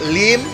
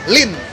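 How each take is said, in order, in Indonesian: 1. Berakhiran m dengan vokal i. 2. Berakhiran n dengan vokal i. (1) "Kalau bahasa Hokkiennya itu" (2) "kalau misalnya Mandarin"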